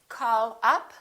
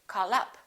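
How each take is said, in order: First: The two words are said separately. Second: The two words run together, linked.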